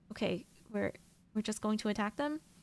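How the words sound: The voice rises at the end like a question.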